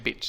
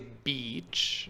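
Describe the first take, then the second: First: It is said with a Greek-like vowel. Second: It is said with an effortful English-like vowel. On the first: "I cannot say the word beach in English. I'm just saying beach" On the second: "I really need to try hard and say beach"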